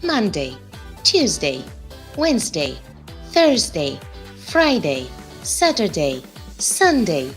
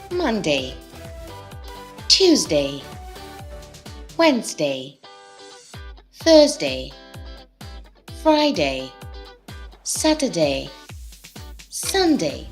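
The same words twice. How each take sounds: First: The days are said very fast. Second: The days are said fast.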